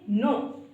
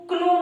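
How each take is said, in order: First: The word begins directly with an n sound. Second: The word begins with a spoken k sound. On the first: The speaker calls it right. "हम इसको पढ़ेंगे नो" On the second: The speaker calls it wrong. "हम इसको क्नो नहीं पढ़ेंगे"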